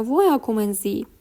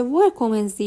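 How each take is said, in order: First: ویا کومنزی with ویا ending in an open vowel, no r; r turned to "a". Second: ویر کومنزی with the r sounded at the end of ویر; pronounced with r. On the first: Teacher quotes other variant from conversations, ویا without r. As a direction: let ویا end on "a" before کومنزی. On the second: Teacher quotes one variant from conversations, ویر with final r. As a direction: keep an audible r in ویر before کومنزی. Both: Shown as a demonstration.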